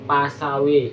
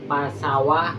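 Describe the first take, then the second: First: The final vowel is tilted toward an e sound. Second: The final vowel is an open a sound. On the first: "Dibaca imalah" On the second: "bunyi awal"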